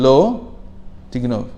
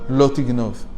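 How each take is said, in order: First: There is a clear pause between the two words. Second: The two words run together without a pause. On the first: The speaker calls it right. "there's a psik tama. There's a, a, a, a halt, a f- almost a full stop" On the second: The speaker calls it wrong. "It's not written um"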